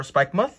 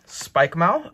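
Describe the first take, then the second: First: Spikemuth with a short "muth"; short muth ending. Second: Spikemuth ending like "mouth"; second half like mouth. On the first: Reader offers another reading, Spikemuth said as "spike-muth". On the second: Reader tries a card name, Spikemuth said as "spike-mouth". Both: Real, not acted. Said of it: "or Spikemuth".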